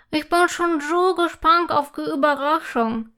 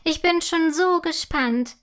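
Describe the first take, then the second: First: Talking through a mouthful of cake; eager words round a bite; mouth full. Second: Bright, eager, a little higher; full of happy anticipation; joyful. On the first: Girl at the table, speaking with her mouth full. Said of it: "sagt Imme mit vollem Mund". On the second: Girl can't wait to see the surprise, joyfully. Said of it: "meint Imme voller Freude". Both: A narrator's reading.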